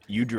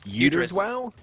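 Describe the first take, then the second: First: The name is said in a clipped, shortened form. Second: The name is said in a longer, fuller form. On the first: "We just shortened it to Udriz" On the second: "Am I doing that okay?"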